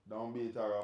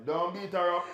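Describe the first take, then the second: First: Said in the usual way. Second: Laughing. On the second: Real, not acted. Laughing plea to Germany.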